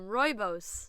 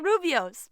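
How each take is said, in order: First: It begins with 'roy' and ends like 'boss'. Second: It begins with 'roo' and ends like 'bee-ohs'. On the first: The speaker calls it right. "You got it right the second time" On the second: The speaker calls it wrong. "that's not how you say it"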